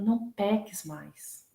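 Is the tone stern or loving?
loving. It is said in a gentle, loving voice.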